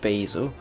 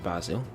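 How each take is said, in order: First: It is said with an American accent. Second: It is said with a British accent.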